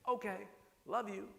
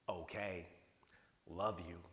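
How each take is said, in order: First: "Okay, love you." lifted high and bright on "love", affectionate dad; cheerful sign-off. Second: "Okay, love you," dropped low and flat, each word falling like a chore; mock-resentful "Okay, love you,"; grudging read. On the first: Retold or imitated. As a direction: say "Okay, love you." with a light, rising, loving tone. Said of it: "See how angry you are?". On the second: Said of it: "here's an exact quote".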